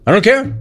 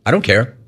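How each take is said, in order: First: Higher-pitched echo of the quote; mocking repeat. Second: Said in the usual way. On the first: Radio host quoting the quarterback at fans, mocking repeat. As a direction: throw it back in disbelief, pitched up. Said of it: "He said it". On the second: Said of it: "You know what he said?".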